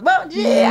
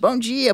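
First: It is said cheerfully, with a smile. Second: It is said flatly, as if in pain.

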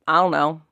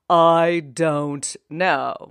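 First: The words run together in a reduced form. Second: Each word is said fully and separately. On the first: The speaker calls it right. "We say, ... Sometimes even just slurring our words" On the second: The speaker calls it wrong. "We never say"

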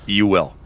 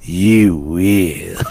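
First: It is said in his normal voice. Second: It is said in a Yoda impression.

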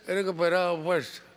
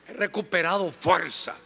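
First: It is said weakly, with little energy. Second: It is said forcefully, with much energy.

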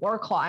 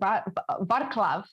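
First: It is read out the English way. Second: It is said the Polish way. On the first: The speaker calls it wrong. "I was saying, oh yeah, I'm going to Wrocław" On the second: The speaker calls it right. "And they're like, oh no, you're going to Wrocław"

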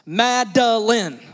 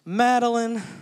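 First: The name is said sternly, each syllable separated. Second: The name is said in a playful, amused way. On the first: The child is in trouble. "that's where you break out all the syllables" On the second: The speaker reacts to something silly. "she'll do something kind of funny or goofy. And I'll say"

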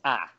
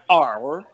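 First: The letter ends in an open ah vowel. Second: The letter ends with a clear r sound. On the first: The speaker calls it right. "it's ah" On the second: The speaker calls it wrong. "Not R"

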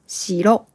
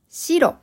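First: The pitch is low then rises on the second syllable. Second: The pitch is high then falls on the second syllable. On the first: It means a castle. "二つ目の白は建物です。" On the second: "一つ目の白は色です。"

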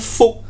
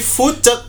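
First: The word is said as one syllable. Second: An extra vowel splits the word into two syllables. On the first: "bukan fuck" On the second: "dibacanya bukan fuck tapi fucek"

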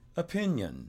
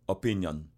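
First: The middle syllable is raised and stressed. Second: All syllables are stressed evenly. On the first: "I went up and hit the pin" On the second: "They would just stress it all out evenly"

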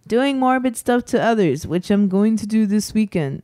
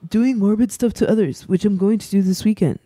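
First: It is read in the speaker's normal voice. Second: It is read in a put-on character voice.

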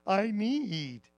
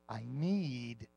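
First: It is said in a whiny, complaining voice. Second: It is said in a plain, even voice.

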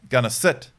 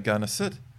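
First: The command is said crisply and sharply. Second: The command is said softly and relaxed. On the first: The speaker calls it right. "I would sharpen up" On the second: The speaker calls it wrong. "you're quite relaxed"

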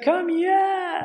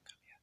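First: It sounds joyful and excited. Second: It is whispered secretively.

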